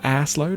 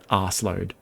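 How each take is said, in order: First: It is said the American way, as ass. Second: It is said the British way, as arse. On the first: "how do Americans say it?" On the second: "I would say that word arse load"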